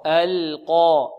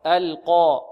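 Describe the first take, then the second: First: القى drawn out very slowly, lam thin, qaf heavy; slow tajweed model. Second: القى with a light lam and a heavy emphatic qaf; thin lam, heavy qaf. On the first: Teacher repeats القى slowly for the class, thin lam, heavy qaf. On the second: Teacher models القى for students, thin lam, heavy qaf. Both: Shown as a demonstration. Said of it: "اللام مرققة والقاف مفخمة".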